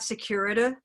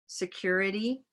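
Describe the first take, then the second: First: The final syllable lacks a clear 'ee' vowel. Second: The final syllable ends in a clear 'ee' vowel. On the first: The speaker calls it wrong. "It's not" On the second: The speaker calls it right. "clear, unstressed syllables at the end. That's like a small green"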